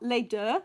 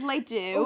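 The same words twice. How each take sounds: First: The name is said with French pronunciation. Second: The name is said with an anglicized pronunciation. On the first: This is the proper way to say the name. "which is how it should be pronounced" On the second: This is how people casually say the name. "for some reason we pronounce it as"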